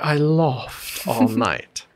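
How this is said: It is said with a posh broad 'ah' vowel. "in order to sound posh and sophisticated"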